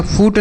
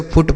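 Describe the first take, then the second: First: फूट with a long oo, as "foot" misread; wrong long vowel in फूट. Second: फुट with a short, quick oo; short vowel in फुट. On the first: Teacher rejecting a misreading for children, फूट with long oo. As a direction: lengthen the oo in फूट. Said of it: "फूट नहीं पढ़ेंगे बच्चों". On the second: Teacher correcting the reading for children, फुट with short oo. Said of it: "इसे फुट पढ़ेंगे". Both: Shown as a demonstration.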